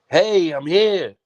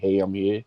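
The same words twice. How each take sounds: First: It is said loudly with energy. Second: It is said flatly and plainly.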